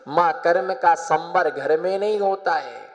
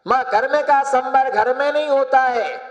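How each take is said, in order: First: Said in the usual way. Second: High, sustained insistent restatement; insistent retold plea. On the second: Son telling his mother why he must leave, insistent. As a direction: press the point to mother on a raised pitch. Son's line repeated with force.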